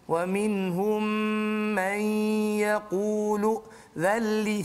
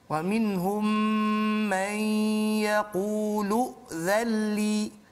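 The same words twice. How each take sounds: First: A breath is snatched partway through the phrase. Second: It is read connected with no breath break. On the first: The speaker calls it wrong. "situ dia curi" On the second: The speaker calls it right. "bila kita baca bersambung"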